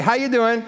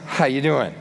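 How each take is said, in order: First: "How you doing?" higher and brighter, breezy; breezy greeting. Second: Said in the usual way. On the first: Shown as a demonstration. A churchgoer greeting a friend in passing, breezy. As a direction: toss off a cheery hallway greeting. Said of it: "they're gonna give it to you". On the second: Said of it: "don't ask 'em".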